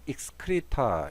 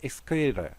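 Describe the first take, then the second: First: Each sound is pronounced carefully, with a clear t. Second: Said smoothly, with the t as a light tap. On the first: "또박또박하게 발음하면" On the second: "좀 자연스럽게 발음하면 그냥 excrete 어, 가볍게 혀를 탁 치죠"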